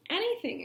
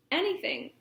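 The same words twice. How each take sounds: First: Higher, pleading second anything; more eager. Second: Eager first anything. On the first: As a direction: repeat it higher and more desperate. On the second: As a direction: blurt it out eagerly. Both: A narrator's reading. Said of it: "agreed Poppy".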